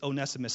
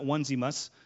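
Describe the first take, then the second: First: The name does not begin like 'onesie'. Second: The name begins with a sound like 'onesie'. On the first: The speaker calls it right. "Please note, it's Onesimus" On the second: The speaker calls it wrong. "It's not Onesimus. He's not wearing like a onesie"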